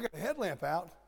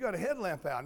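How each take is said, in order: First: The voice rises at the end, like a question. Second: The voice falls at the end, like a statement. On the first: It sounds like doubting the fact. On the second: It states a fact.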